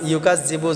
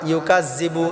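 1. মধ্যবর্তী ব্যঞ্জনটি z উচ্চারণে বলা হয়। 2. মধ্যবর্তী ব্যঞ্জনটি z উচ্চারণে বলা হয়।

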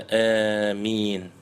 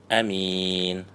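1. Долгий первый гласный склоняется к звуку i. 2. Первый гласный короткий, а m одиночное. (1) "протягивая а, но с ималей, что-то между а и и" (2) "не удлиняя хамзу и не удваивая мим"

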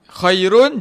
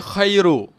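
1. Kata itu berakhir dengan bunyi n yang jelas. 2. Kata itu berakhir tanpa bunyi n. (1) "Asal bunyi dia" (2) "kita buang nun"

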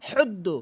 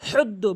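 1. 'h' টি গলার গভীর থেকে উচ্চারিত হয়। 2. 'h' টি গলার গভীর থেকে উচ্চারিত হয়।

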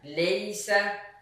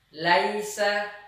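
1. Vokal pertama adalah 'e' yang lebih sempit. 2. Vokal pertama adalah 'a' terbuka penuh.

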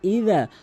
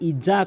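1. মাঝের ব্যঞ্জনটি একটি নরম th শব্দ। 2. মাঝের ব্যঞ্জনটি একটি গুনগুনে z শব্দ।

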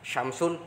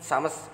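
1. Kata ini diucapkan dengan akhiran kasus lengkap. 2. Kata ini diucapkan tanpa akhiran kasus.

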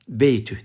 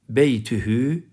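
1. Kelime h ile biter, sonunda ünlü yoktur. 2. h'den sonraki son ünlü telaffuz edilir.

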